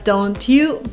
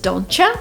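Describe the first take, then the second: First: Don't and you are said as separate words. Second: The words merge into a single sound, donchya.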